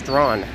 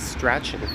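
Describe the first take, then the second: First: The name is said as 'Strawn'. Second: The name is said as spelled, 'Strachan'. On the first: This is the local Toronto pronunciation. The speaker calls it right. "it's pronounced Strawn" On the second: This is how people read the spelling. The speaker calls it wrong. "A lot of people might read it as Strachan"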